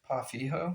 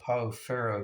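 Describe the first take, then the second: First: It is said with a Brazilian Portuguese pronunciation. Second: It is said with an American pronunciation. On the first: This is how it is said in Brazil. "a guy from Brazil chimed in once and said it's called uh, Pa Fijo. I believe that's how you pronounce it" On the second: This is how it is said in the States. "in the States we call it uh, Pao Ferro because we see the, the two R's"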